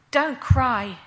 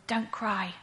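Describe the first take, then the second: First: Firm, calm authority, a little louder; quiet authority. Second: Soft, gentle comfort, a little quieter. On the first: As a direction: reassure her with calm command. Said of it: "but with quiet authority". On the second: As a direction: say it softly to a grieving mother. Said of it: "spoke gently to me". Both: Retold or imitated.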